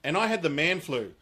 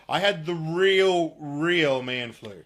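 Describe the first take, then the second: First: Said in the usual way. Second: "real, real" slowed right down and leaned on; mock-serious stress on "real". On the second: Real, not acted. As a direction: drag out "real" both times for emphasis.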